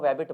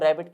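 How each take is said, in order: First: The word begins with a W sound. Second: The word begins with an R sound. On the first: The speaker calls it wrong. "रैबिट की जगह वो वैबिट बोलते हैं" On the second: The speaker calls it right. "अगर रैबिट बोलना है"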